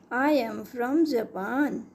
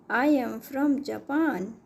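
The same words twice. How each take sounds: The two takes are said the same way.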